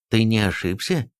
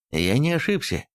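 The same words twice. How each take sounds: First: Mildly concerned question, rising at the end; understated unease in a mother's question; worried question. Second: Assured answer, falling at the end; mildly self-assured statement; confident reply. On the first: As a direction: ask with a touch of worry. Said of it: "обеспокоенно спросила Тиудигота". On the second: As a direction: answer firmly, with no doubt. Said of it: "уверенно ответил Эйрих". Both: A narrator's reading.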